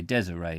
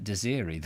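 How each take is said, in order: First: "Desiree" said as DEZ-uh-ray; settled pronunciation. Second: "Desiree" said as dih-ZEER-ee; preferred pronunciation. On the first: Reader settles on the name Desiree, said DEZ-uh-ray. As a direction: end "Desiree" on ray, stressed at the front. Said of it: "but anyway, Desiree". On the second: Reader prefers the old Desiree, said dih-ZEER-ee. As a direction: middle of "Desiree" stretched to ZEER. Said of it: "I quite like Desiree". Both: Shown as a demonstration.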